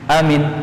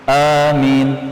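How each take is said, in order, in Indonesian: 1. Kedua vokal pendek. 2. Vokal pertama panjang, yang kedua pendek. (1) "Kalau dua-duanya pendek" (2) "Kalau hamzahnya panjang, ... mimnya pendek"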